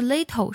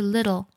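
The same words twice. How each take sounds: First: The middle consonant is a crisp t sound. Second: The middle consonant is a soft d sound. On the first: The speaker calls it wrong. "不是little" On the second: The speaker calls it right. "是little，特的音呢要读作唱作的的音"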